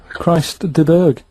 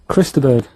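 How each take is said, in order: First: The name is said in a Jamaican accent. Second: The name is said in a plain accent. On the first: It sounds like a cry about the iceberg. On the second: It just names the singer.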